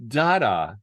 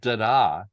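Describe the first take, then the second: First: The stress is on the first syllable. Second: The stress is on the second syllable. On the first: "the accent is on the first syllable" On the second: "not da da"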